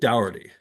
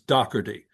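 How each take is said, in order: First: The middle consonant is softened, not hard. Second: The middle consonant is a hard K sound. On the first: "the English way, which is to soften it" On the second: "my family took the hard K ... without the accent becomes Doherty"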